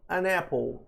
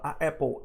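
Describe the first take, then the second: First: An n sound links smoothly into apple. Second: A bare vowel meets apple with a stutter-like break. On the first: The speaker calls it right. "Fica mais natural" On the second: The speaker calls it wrong. "vai ficar parecendo que eu dou uma gaguejada"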